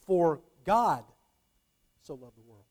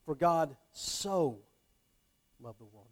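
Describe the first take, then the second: First: God held, the rest fades away; stress on God. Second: Slow For God so, then a soft falling love the world; slow For God so, trailing off after; stress on so. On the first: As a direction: pause after God. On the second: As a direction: stretch out so. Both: Shown as a demonstration. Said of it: "I put a different inflection on the words".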